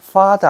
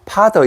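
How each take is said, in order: First: It begins with an f sound, lip on teeth. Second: It begins with a p-like sound, lips together. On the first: The speaker calls it right. "father 안 하고" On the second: The speaker calls it wrong. "father 이래 버리면은 다우리 말이 달라져 버리는 거예요"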